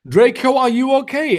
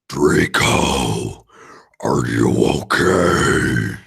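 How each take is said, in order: First: It is said in a normal voice. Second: It is said in a put-on gothic voice.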